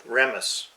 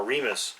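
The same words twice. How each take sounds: First: "Remus" with a short e, as in REM-us; short-e pronunciation. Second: "Remus" with a long e, as in REE-mus; long-e pronunciation. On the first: Co-host naming the evil god, Remus said REM-us. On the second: Co-host offering another name for the god, Remus said REE-mus. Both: Shown as a demonstration. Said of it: "Is it Remus".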